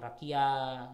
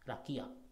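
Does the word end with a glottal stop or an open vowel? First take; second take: open vowel; glottal stop. First: The word ends on an open vowel. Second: The word ends with a glottal stop. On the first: The speaker calls it wrong. "jangan rakia gitu ya" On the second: The speaker calls it right. "tapi dia ada tanda pemberhentian"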